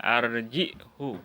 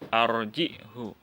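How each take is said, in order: First: The word ends with a short 'hu'. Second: The word ends with a short 'hu'.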